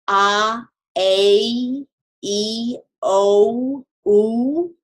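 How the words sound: The vowels are drawn out and glide, English-style. The speaker calls it wrong. "not ... as if they were English vowels"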